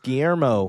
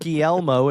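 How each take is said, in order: First: The middle consonant is not a plain L sound. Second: The middle consonant is a plain L sound. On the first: The speaker calls it right. "it's Guillermo" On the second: The speaker calls it wrong. "It's not Guillermo, you end up making an L sound"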